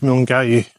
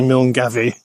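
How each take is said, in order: First: The name is said without a V sound. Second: The name is said with a V sound. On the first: The speaker calls it right. "But it's Milngavie. You don't do the V" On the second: The speaker calls it wrong. "I always say Milngavie"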